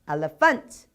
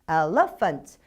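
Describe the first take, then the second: First: The stress is on the third syllable. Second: The stress is on the second syllable. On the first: "뒤에 두 가지는 조금 뭔가가 이상한 듯 합니다" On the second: "뒤에 두 가지는 조금 뭔가가 이상한 듯 합니다"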